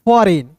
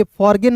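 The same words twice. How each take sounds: First: फॉरेन with a silent G, falling; right way: फॉरेन, G dropped; correct pronunciation. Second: फॉरगेन with the G sounded; the wrong way: फॉरगेन, G spoken; wrong pronunciation shown. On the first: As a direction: say फॉरेन, no G at all. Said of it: "फॉरगेन नहीं". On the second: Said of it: "नहीं". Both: Shown as a demonstration.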